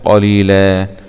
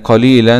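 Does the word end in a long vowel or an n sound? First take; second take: long vowel; n sound. First: The word ends with a long a vowel. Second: The word ends with an n sound, running on. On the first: The reading stops on this word. "لكن هنقف عليها" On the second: The reading continues without stopping. "لو إحنا هنوصل"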